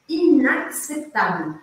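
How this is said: The word is said smoothly in one flow.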